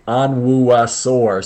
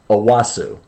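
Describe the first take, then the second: First: The name is said in full, like On-wu-a-sor. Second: The name is said shortened, like O-wos-so. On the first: It is said this way so the listener can spell it. "I say Onwuasor, so she spells it out correctly, phonetically" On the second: This is how the name is really pronounced. "but it's Owosso"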